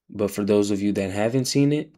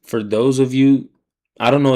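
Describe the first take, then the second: First: Said in the usual way. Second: Loud call-out. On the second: Real, not acted. Streamer addressing his audience.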